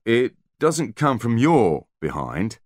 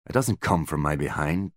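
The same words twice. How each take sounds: First: "your" slowed and lifted, stressed. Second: Said in the usual way. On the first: A narrator's reading. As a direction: hit "your" slowly: from YOUR behind. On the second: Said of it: "Butler was not enthused by the idea".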